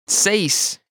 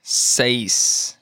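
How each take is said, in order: First: Said in the usual way. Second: "Seis" drawn out slowly; slow model. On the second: Shown as a demonstration. Teacher modelling vocabulary for learners, slow "Seis". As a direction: stretch out each sound of "Seis".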